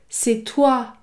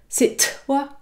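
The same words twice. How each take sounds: First: The emphasis falls on the vowel sound. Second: The emphasis falls on the consonant t. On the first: The speaker calls it right. "j'accentue toujours la voyelle" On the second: The speaker calls it wrong. "je n'accentue pas la consonne. Je ne dis pas"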